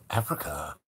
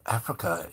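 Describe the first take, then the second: First: Low, far-off puzzled echo of the word; quiet disbelieving echo; surprised question. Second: Said in the usual way. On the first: Retold or imitated. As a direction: repeat it back in disbelief, lower. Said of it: "He goes".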